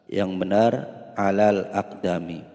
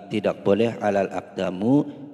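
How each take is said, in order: First: The last word ends in an i vowel. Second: The last word ends in a u vowel. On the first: The speaker calls it right. "Yang benar" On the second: The speaker calls it wrong. "tidak boleh alal aqdamu, salah"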